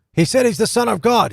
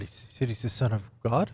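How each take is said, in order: First: High, louder burst of disbelief; alarmed realization. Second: Hushed, questioning echo with a rise on God; stunned question. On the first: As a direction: blurt it out as it suddenly hits you. Acting out Pilate's dawning alarm. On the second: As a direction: repeat it softly to yourself in disbelief. Pilate repeats it to himself, questioning. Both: Acted.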